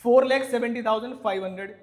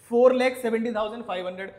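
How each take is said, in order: Both takes have the same delivery.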